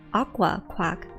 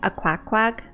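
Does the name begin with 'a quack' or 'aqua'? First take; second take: aqua; a quack. First: It sounds like 'aqua' followed by one quack. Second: It sounds like 'a' followed by two quacks. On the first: The speaker calls it right. "It's pronounced Aqua Quack" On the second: The speaker calls it wrong. "I thought it was pronounced a quack quack"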